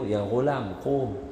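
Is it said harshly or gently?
gently. It is said softly and gently.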